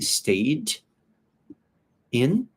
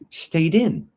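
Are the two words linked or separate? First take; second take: separate; linked. First: The two words are said separately. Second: The final d links into the next word. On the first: "like we were talking about the pronunciation of ed" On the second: "but it really sounds like stayed in"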